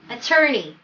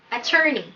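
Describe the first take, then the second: No difference in how they are said.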